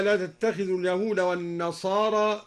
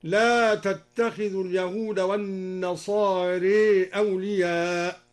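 First: Said in the usual way. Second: والنصارى with its final alif leaned toward e, as nasare; imala reading. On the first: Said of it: "قوله تعالى". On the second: Shown as a demonstration. Teacher showing students the imala in والنصارى. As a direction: tilt the ending of والنصارى toward e. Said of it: "بالإمالة أيضًا".

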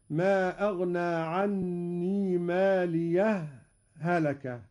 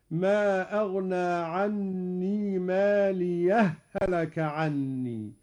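First: Slow recitation, brief breathless halt after "ماليه" before "هلك"; sakt pause. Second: Slow recitation, "ماليه" fused into "هلك" as one doubled h; idgham merging. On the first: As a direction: sound the final ه of "ماليه", pause, then "هلك". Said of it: "هذا هو السكت". (سكتة لطيفة بين "ماليه" و"هلك") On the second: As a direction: run "ماليه هلك" together without any pause. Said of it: "وهذا هو الإدغام". (إدغام هاء "ماليه" في هاء "هلك") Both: Shown as a demonstration.

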